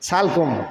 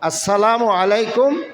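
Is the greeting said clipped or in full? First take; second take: clipped; full. First: The greeting is squashed into two short syllables. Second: Every syllable of the greeting is said fully. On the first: The speaker calls it wrong. "ইদানিং একটা সালাম শুনছিলাম" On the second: The speaker calls it right. "কিভাবে সালাম শুদ্ধ করে দিতে হবে?"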